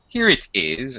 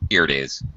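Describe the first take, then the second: First: The t in 'it' is a clear t. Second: The t in 'it' sounds like a d. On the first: "British pronunciation with the T" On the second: "And American, it sounds more like a D"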